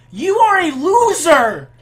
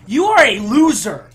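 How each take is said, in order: First: Higher, louder, slow mocking yell; drawn-out taunt. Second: Loud angry taunt at a rival. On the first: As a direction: drag it out to humiliate him. Repeats taunt, higher slower. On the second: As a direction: shout it like a sore gamer. Raging at opponent. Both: Real, not acted.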